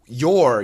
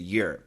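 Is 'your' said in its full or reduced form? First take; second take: full; reduced. First: The word is said in its full form. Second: The word is said in a reduced form.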